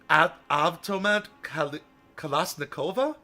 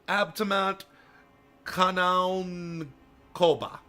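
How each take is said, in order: First: The first word starts with an 'av' sound. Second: The first word starts with an 'ab' sound. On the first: The speaker calls it right. "that was not not what I thought" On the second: The speaker calls it wrong. "Here's the only attempt I can make because I know these letters don't make the sounds that they look like"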